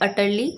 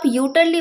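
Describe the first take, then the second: First: The word begins with an 'uh' sound. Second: The word begins with a 'yoo' sound. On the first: The speaker calls it right. "यू लिखा है उसे हम अ pronounce करते हैं, तो correct pronunciation होती है अटरली" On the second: The speaker calls it wrong. "इसको आप यूटरली मत बोल दीजिएगा"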